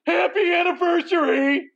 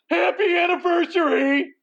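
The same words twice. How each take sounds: First: It is said in a happy, cheerful tone. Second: The same.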